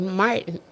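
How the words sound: The name is said with an American pronunciation.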